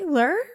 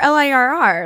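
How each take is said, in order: First: The name is said as one short word. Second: The name is spelled out letter by letter. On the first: "Do you say Lure?" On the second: "Or L-I-R-R"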